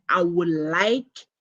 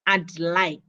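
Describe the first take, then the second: First: Said in the usual way. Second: "I'd like" with the D sounded before "like"; audible D. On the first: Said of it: "This means that". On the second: Shown as a demonstration. Teacher has students listen, audible D in "I'd". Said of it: "listen to the D in".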